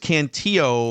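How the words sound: The name is said with its native-language pronunciation.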